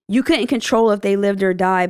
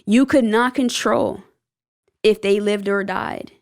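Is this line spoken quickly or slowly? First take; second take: quickly; slowly. First: The line is spoken quickly. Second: The line is spoken slowly. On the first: The speaker calls it wrong. "I think I said that a little bit quickly" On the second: The speaker calls it right. "I'm going to run it back"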